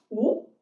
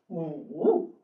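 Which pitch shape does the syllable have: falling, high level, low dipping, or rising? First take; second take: rising; low dipping. First: The pitch rises from middle to high. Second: The pitch dips low, then rises. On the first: "二声呢" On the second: "三声呢"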